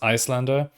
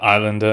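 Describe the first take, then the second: First: The name begins with an 'ice' sound. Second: The name begins with a plain 'eye' sound. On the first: The speaker calls it right. "it should be pronounced Icelander" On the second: The speaker calls it wrong. "it's not technically uh, Islander"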